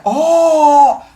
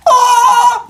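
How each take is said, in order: First: High, loud oh with a laugh; a delighted yelp. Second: Very high, loud shriek of oh; a sharp startled shriek; high shocked oh. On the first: Teacher showing the other kind of ah. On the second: Teacher contrasting two kinds of scream. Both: Shown as a demonstration. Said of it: "Two different ahs".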